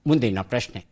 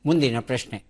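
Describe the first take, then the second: Both takes have the same delivery.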